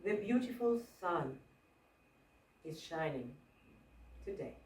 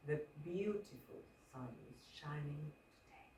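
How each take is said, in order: First: "The beautiful sun", pause, "is shining", pause, "today" fading down; stress with pauses. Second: Quiet, low, almost breathed "The beautiful sun is shining today"; emphasis by softness; very soft line. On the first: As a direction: break the line with long pauses. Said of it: "So what if I say". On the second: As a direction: drop the whole line to a hush. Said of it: "That could also work". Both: Shown as a demonstration.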